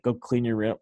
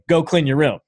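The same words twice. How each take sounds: First: It is said hesitantly, like a question. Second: It is said firmly, like a command.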